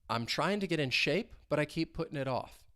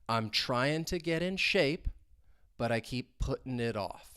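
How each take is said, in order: First: The sentence is spoken at normal conversational speed. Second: The sentence is spoken slowly and deliberately. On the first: "Now at a more normal speed" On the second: "let's say it slowly"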